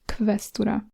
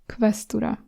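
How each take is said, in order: No difference in how they are said.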